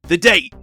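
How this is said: It is said in an attempted New York accent.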